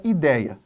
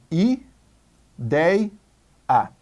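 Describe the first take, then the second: First: Said in the usual way. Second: "i, dei, a" with a pause after each syllable; separated into syllables. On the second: Shown as a demonstration. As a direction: split ideia slowly into "i, dei, a". ("i, dei, a", sílaba por sílaba, com pausas) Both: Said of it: "Vamos separar em sílabas".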